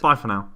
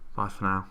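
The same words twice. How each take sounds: First: It is said loudly. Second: It is said quietly.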